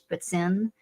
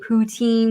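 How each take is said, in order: First: Poutine is pronounced the French way. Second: Poutine is pronounced the American English way. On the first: "it's actually in French poutine" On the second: "that's like how like most Americans say it"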